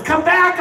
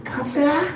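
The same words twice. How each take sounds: First: Dad yelling come back. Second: Titanic-style plea. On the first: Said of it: "My dad's motto was". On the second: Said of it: "I just imagine the Titanic movie". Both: Retold or imitated.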